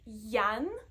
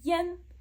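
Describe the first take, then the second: First: The vowel sounds like an open 'ya'. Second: The vowel sounds like a closer 'ye'. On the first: The speaker calls it wrong. "So it's not yan, because I plus N you would think that it's a ya sound" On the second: The speaker calls it right. "it's a ye sound. So it's yen"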